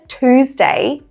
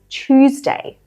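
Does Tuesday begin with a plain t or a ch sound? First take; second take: plain t; ch. First: It begins with a plain t sound. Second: It begins with a ch sound. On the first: "pronouncing it with a T" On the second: "we have this sound, ch. So we say"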